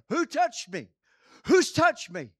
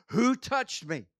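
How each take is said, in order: First: Loud, urgent shout into the crowd. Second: Slow, deliberate, raised question; slow, firm asking. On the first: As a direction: bellow it out so the whole crowd hears. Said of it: "And he would have shouted it". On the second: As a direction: ask it slowly and firmly, not yet shouting. First asking, before the shout. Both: Acted.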